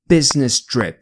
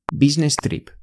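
First: It is said with an English accent. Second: It is said with a Spanish accent. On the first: The speaker calls it wrong. "我们不说business trip，因为business trip 就是英语的发音" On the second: The speaker calls it right. "我们要用西班牙语发音这个英语。那我们说business trip"

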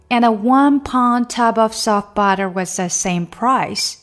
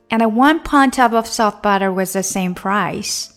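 First: The sentence is spoken at a slower pace. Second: The sentence is spoken at a faster pace.

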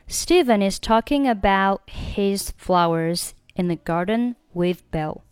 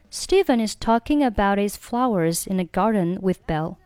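First: The t of about is not pronounced. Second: The t of about links into his.

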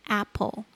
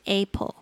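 First: The first vowel is said with a lower tongue. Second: The first vowel is said with a higher tongue. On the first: The speaker calls it right. "是apple，那个舌头稍微向下压" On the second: The speaker calls it wrong. "不要念成A，不是apple"

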